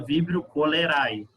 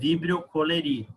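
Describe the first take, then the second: First: The last word ends with an 'ai' sound. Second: The last word ends with an 'ee' sound. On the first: The speaker calls it wrong. "Você sabe que é errado falar assim" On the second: The speaker calls it right. "você não pode falar ai, você fala coleri"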